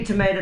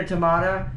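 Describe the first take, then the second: First: "tomato" said tuh-MAY-toh; long-A pronunciation. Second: "tomato" said tuh-MAH-toh; broad-A pronunciation. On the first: Streamer shrugs off terminology, "tomato" said tuh-MAY-toh. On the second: Streamer shrugs off terminology, "tomato" said tuh-MAH-toh. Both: Shown as a demonstration. Tomayto, tomahto saying contrasts two pronunciations.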